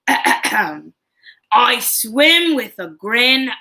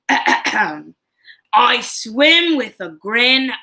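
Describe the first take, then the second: First: It is spoken in a put-on Australian accent. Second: It is spoken in a put-on Australian accent.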